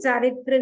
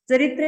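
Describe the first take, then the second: First: The first vowel is long. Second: The first vowel is short. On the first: The speaker calls it right. "चारित्र विराधना" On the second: The speaker calls it wrong. "चरित्र नहीं"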